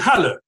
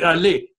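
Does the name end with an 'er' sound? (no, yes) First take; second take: yes; no. First: The name ends with an 'er' sound. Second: The name ends without an 'er' sound. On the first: This is how a German speaker would say it. "In German, it would be Halle, yeah, with an er sound at the end" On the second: This is how a French speaker would say it. "And the French would do Hallé, unless you told them otherwise"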